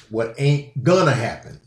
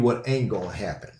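First: "gonna" restated in two clear syllables, GUN-nuh; fuller, deliberate gonna. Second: "gonna" slurred short to "gon'", quick and soft; casual run-together gonna. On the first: Podcaster corrects own wording for listeners, emphatic full "gonna". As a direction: lean on "gonna", sounding it out fully. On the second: Podcaster warns folks what won't happen, casual clipped-down "gonna". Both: Shown as a demonstration. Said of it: "Let me say it like that".

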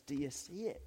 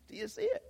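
First: Said in the usual way. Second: "Do you see it?" in a much higher squeaky voice, rising at the end; imitating Tammy. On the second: Preacher mimics Tammy's catchphrase to the congregation, high squeaky voice. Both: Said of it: "As Tammy would say".

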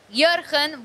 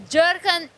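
First: "Jurgen" with a Y sound and throaty G, like "Yur-khen"; Dutch pronunciation. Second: "Jurgen" with an English J, like "Jer-gen"; English pronunciation. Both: Shown as a demonstration. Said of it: "Close enough".

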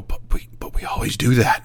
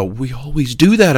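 First: Hushed, stammering mock alarm; imitated fear. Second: Higher, voiced cry of mock alarm; imitated alarm. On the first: Technicians turning to the boss, mock fearful. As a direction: imitate a scared employee, barely voiced. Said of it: "look at me with fear and go". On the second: Technicians turning around again in class, mock alarm. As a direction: imitate a worried employee protesting. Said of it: "they'd turn around and go".

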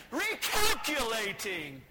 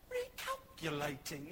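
First: Loud, slow, drawn-out mock scream; screaming GPS. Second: Slow, soft, low British lady GPS; British lady accent. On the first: GPS furious at another wrong turn, screaming. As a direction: bellow it as a machine gone mad. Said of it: "It was screaming at us". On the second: Retold or imitated. British GPS lady correcting the driver, British accent. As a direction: put on a polite British accent, drawn out. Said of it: "a British lady".

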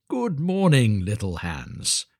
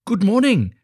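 First: Lightly voiced patronising miller, falling away on the name; hearty miller greeting. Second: High, loud, eager greeting; delighted little Hans. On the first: Miller arriving to visit little Hans, a measured hearty greeting. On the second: Acted. Hans answering the miller from his garden, delighted high greeting. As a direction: pipe up brightly as an overjoyed simple friend.

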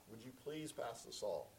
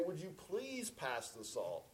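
First: Soft, lower, courteous asking; polite request. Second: Slow, pointed request, leaning on PLEASE; impatient please. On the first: Asking at Susan's family table to pass the salt, polite. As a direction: ask gently and politely, please unstressed in the flow. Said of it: "please was the polite way". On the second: Asking a second time at the family table, mock impatient. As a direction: ask with mock strained patience, drawing out please. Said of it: "of impatience". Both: Retold or imitated.

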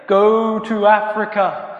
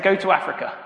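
First: Loud, high, long-drawn booming command; over-exaggerated God voice. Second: Quick, slightly raised excited report; eagerly reported message. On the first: Prankster posing as God sends Jacob off, over-exaggerated heavenly boom. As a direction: proclaim it hugely and slowly as God from heaven. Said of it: "over-exaggerated way". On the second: Acted. Young Jacob reporting what God told him, eager and matter-of-fact. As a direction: pass the message on eagerly, without booming. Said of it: "my friend Jacob comes in and he goes".

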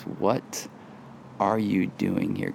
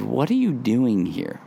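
First: Soft, hushed What are you doing here; whisper. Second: Said in the usual way. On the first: Shown as a demonstration. Pastor voices God's question to Elijah in a soft hush. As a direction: breathe the question gently. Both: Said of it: "And he whispers".

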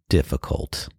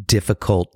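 First: Whispered, trailing off. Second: Said in the usual way. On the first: Real, not acted. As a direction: drop it to a tired whisper. Repeated word fading away.

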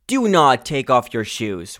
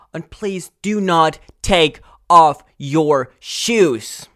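First: Said in the usual way. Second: Slow, louder, higher, every word leaned on; please do not take off your shoes, slow and emphatic. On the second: Real, not acted. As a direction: hammer home each word of the rule. Laying down cinema rules.

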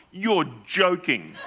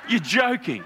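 First: Laughing disbelief. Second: Higher, laughing "You're joking"; surprised disbelief. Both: Retold or imitated. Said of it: "I quote myself".

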